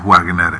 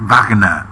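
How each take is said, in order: First: The name is said the everyday local way. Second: The name is said the German way. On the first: This is how everyone here says the name. "todos le decimos Wagner" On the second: This is the correct pronunciation of the name. "Estoy escuchando a mi profesor de alemán, Fernando Curdín, es Wagner"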